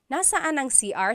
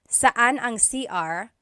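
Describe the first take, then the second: First: The first word is the full three-syllable form. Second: The first word is shortened, dropping the first syllable. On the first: "technically it should be nasaan" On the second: "people shorten it"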